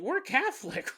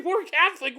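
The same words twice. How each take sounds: First: Said in the usual way. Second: We're Catholic with a louder, higher push; emphatic repeat. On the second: Retold or imitated. Host voicing the family's realization, louder emphatic repeat. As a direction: hit "We're Catholic" harder, like a sudden realization.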